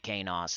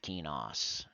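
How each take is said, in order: First: The first syllable sounds like 'kay'. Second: The first syllable sounds like 'key'. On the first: The speaker calls it wrong. "because you say Kanos instead of Kenos" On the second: The speaker calls it right. "So it's E, so it's I get it, Kenos"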